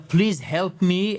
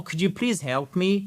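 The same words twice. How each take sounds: First: Slow, pleading please help me; too dramatic plea. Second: Calm, clear, polite Could you please help me; calm polite request. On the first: Teacher showing the wrong, overly dramatic plea. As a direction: beg as if in danger. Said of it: "là, ça sonne vraiment dramatique". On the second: Teacher showing the right polite request. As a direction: ask nicely and clearly. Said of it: "Calme, clair, poli". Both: Shown as a demonstration.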